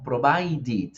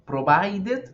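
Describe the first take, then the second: First: "provided" said "pro-vai-did", slow and falling; correct ID ending. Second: "Provided" said "pro-vai-det", high and rising; wrong-way "Provided" with E in the last syllable; wrong ending. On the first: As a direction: end "provided" on a drawn-out "-did". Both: Shown as a demonstration. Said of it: "no, provided".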